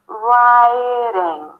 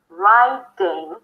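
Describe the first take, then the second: First: The middle D is a quick light tap. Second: The middle D fully stops the air. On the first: The speaker calls it right. "you just bring the tongue to touch really lightly" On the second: The speaker calls it wrong. "instead of saying riding"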